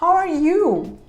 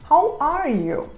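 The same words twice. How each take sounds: First: The stress is on the word you. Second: The stress is on the word are.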